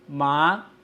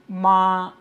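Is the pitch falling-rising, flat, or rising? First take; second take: rising; flat. First: The pitch rises from mid to high. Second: The pitch stays high and level throughout. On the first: Numb. "it is a rising tone" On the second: Mother. "It is a high flat sustained tone"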